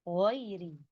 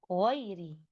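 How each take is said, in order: Both takes have the same delivery.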